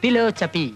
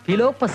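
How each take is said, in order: First: The word is said with an 's' sound. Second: The word is said with a 'pp' sound. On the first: The speaker calls it right. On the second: The speaker calls it wrong. "ഫിലോപ്പസി അല്ലടാ"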